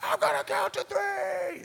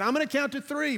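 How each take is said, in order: First: Much higher, full shout over the wind; retold shout. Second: Raised voice, a mild mock shout; retold shouting instructor. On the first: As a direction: yell it so he hears through the roaring air. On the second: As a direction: call it over the wind, half strength. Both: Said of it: "he's screaming".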